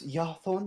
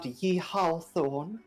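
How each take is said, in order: First: The opening Y sound is plain and unemphasized. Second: The opening Y sound is drawn out and emphasized. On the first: The speaker calls it right. "It's Yarthorn" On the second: The speaker calls it wrong. "not Yehawthorn. ... It's got some emphasis on the Y"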